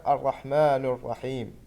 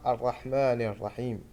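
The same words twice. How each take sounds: First: الرحمن الرحيم with the final نون wrongly given damma; common mistake. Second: الرحمن الرحيم with the proper final vowel; correct reading. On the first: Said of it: "الخطأ الشائع". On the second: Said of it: "والصح". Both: Shown as a demonstration.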